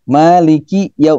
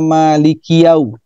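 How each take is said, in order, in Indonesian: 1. Ada jeda kecil di antara kedua kata itu. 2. Kedua kata itu menyatu tanpa jeda. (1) "Maliki ini dipisah nih" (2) "Tidak boleh dibaca Maliki yau. Kiyau"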